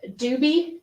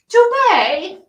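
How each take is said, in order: First: The name ends with an 'ee' sound. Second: The name ends with an 'ay' sound. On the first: "I asked him if his name is pronounced Doobie" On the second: "aren't you fancy? Dubay?"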